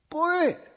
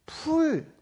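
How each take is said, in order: First: The first consonant is a tense pp. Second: The first consonant is an aspirated p. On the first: The speaker calls it wrong. "뿔로 들리니 거기에 가까운 발음을 하는 거예요" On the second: The speaker calls it right. "내가 풀 하는데"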